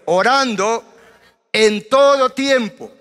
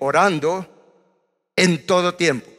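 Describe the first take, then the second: First: It is said loudly and forcefully. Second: It is said at normal, quieter volume.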